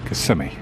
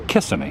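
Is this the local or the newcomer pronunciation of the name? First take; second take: local; newcomer. First: It is pronounced the way locals say it. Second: It is pronounced the way newcomers say it. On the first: The speaker is from the area. The speaker calls it right. "the locals call it" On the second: The speaker is not from the area. The speaker calls it wrong. "someone just recently moved here or they're a tourist and they say"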